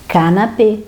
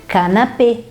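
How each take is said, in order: Both takes have the same delivery.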